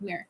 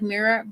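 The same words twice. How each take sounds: First: The word is said quickly, syllables run together. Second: The word is said slowly, syllables drawn out. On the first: "but a lot faster, like mirror" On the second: "I'm saying it like mirror"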